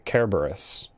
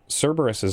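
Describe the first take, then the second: First: The name begins with a hard k sound. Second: The name begins with a soft s sound. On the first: "It's always the hard one" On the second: "there is no soft C sound"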